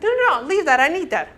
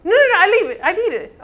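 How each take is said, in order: First: Higher, eager no no no; a touch of a panicked hoarder; protesting. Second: Higher and louder no no no; escalated mock protest; louder insistence. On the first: Retold or imitated. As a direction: clutch at the clutter, pleading. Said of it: "the sanguine's like". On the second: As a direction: refuse even harder, nearly shouting. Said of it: "sanguine answers again".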